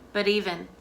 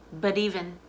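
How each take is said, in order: No difference in how they are said.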